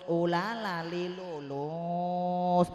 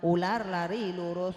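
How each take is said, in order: First: The R sounds are replaced by L sounds. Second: The R sounds are clearly pronounced as R.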